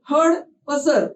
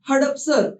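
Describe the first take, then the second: First: The word is split into two parts. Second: The word is said as one unbroken unit.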